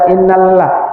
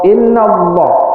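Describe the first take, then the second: First: The L in Allah is thin and light. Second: The L in Allah is thick and heavy. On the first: The speaker calls it wrong. "nggak boleh baca" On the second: The speaker calls it right. "harus tebal"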